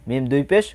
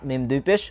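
Both takes have the same delivery.

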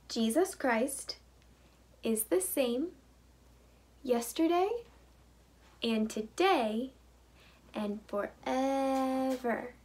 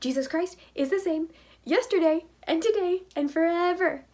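First: It is said at a normal pace. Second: It is said at a very fast pace.

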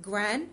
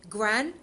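No difference in how they are said.

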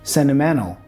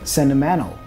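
First: The T is dropped after the N. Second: The T is dropped after the N.

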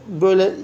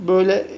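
Both takes have the same delivery.

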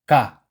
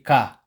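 No difference in how they are said.

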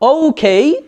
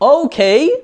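The two takes are said the same way.

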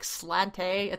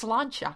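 First: The middle consonant is a plain 't' sound. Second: The middle consonant is a 'ch' sound. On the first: The speaker calls it wrong. "we always think it says like slante" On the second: The speaker calls it right. "It's slancha"

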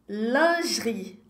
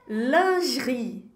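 No difference in how they are said.

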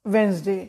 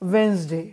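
Both takes have the same delivery.

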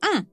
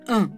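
First: The vowel is the common, more widespread nasal vowel. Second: The vowel is the rarer fourth nasal vowel. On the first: "Vous entendez que c'est différent de un" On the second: "à prononcer correctement la quatrième. Un. Je répète, un"

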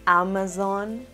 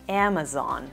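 First: The first vowel is a pure open 'ah'. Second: The first vowel falls between 'a' and 'e'. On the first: The speaker calls it wrong. "No se pronuncia a Amazon" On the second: The speaker calls it right. "se pronuncia entre una A y una E"

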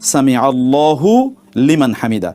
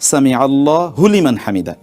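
First: The syllable hu ends the word Allah. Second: The syllable hu begins the word liman. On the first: The speaker calls it right. "সেই জন্য পড়তে হবে" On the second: The speaker calls it wrong. "Not"

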